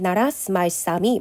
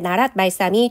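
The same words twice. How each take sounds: First: The s sound after narat is pronounced. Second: The s sound after narat is silent. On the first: This is how it was likely read at that time. "원래 이 당시에는 ... 이런 식으로 읽었을 거란 말이에요. 그러니까 시옷이라고 하는 것도 소리가 났을 거다" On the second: This is how people usually read it today. "여러분은 보통 이제 ... 이렇게 읽겠지만"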